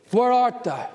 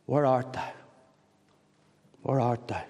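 First: God calling out. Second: Soft, tender asking. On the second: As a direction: ask it gently, lower and softer. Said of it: "God is tenderly asking you". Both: Acted.

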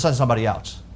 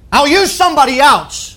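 First: Much lower and softer, a meek retold request; reluctant plea. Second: Raised pitch, emphatic and decisive; imagined angry dismissal. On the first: Moses asking God to pick another, low and reluctant. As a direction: imitate someone quietly begging off. Moses begging off from God's task. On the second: Retold or imitated. Imagined God giving up on Moses, high and emphatic. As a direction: imitate a fed-up master dismissing his servant.

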